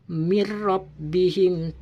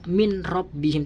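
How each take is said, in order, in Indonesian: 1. Bunyi n melebur ke dalam bunyi r setelahnya. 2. Bunyi n tetap dipertahankan sebelum bunyi r. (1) "Harus dimasukkan suara nun mati tersebut kepada huruf ra" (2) "tidak boleh dibaca"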